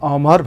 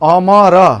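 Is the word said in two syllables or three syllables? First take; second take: two syllables; three syllables. First: It is said as two syllables, 'mar' joined. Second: It is said as three separate syllables. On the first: The speaker calls it right. "हामीले अमर भन्छौं" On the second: The speaker calls it wrong. "अमर हामी भन्दैनौं"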